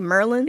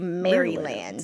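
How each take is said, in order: First: The word is clipped, sounding like Merlin. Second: Every syllable of the word is pronounced. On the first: The speaker is from Baltimore. "if you hear someone say Merlin, they're from Baltimore" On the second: The speaker is from near the capital. "you pronounce it. You you say Maryland"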